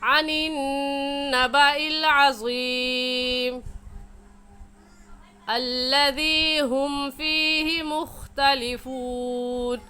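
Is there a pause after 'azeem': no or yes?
yes. There is a pause after the word azeem. "अगर हम वक़फ़ करेंगे तो ऐसे पढ़ेंगे"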